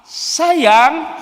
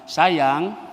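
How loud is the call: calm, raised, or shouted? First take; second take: shouted; calm. First: It is shouted in a very annoyed tone. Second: It is said calmly at normal volume.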